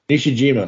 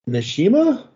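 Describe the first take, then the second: First: The middle 'j' sound is pronounced. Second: The middle 'j' sound is left out. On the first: The speaker calls it right. "Okay, there you go" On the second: The speaker calls it wrong. "I'm probably mispronouncing that. ... there's a J in there, ... I assume that's silent"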